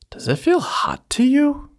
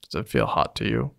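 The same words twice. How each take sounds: First: It is lively, in a distinct character voice. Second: It is flat, in an even narrator voice. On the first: The speaker calls it right. "I use different tones of voice to show the first muffin versus the second muffin" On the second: The speaker calls it wrong. "Now I just sound like the Law and Order narrator. It's not that interesting"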